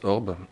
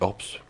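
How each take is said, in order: First: The name ends without an s sound. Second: The name ends with an audible s sound.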